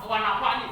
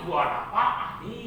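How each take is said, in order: First: "nafa'ni" with a vowelless ain; common misreading. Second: "nafa'ani" with the ain vowelled, drawn out; correct reading. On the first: Preacher repeats the common mistake, mispronounced. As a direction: close the syllable on the ain in "nafa'ni". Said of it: "bukan tidak mati ainnya". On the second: Preacher repeats the corrected reading, carefully pronounced. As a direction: slowly sound an a after the ain in "nafa'ani". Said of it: "tapi berbaris". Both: Shown as a demonstration.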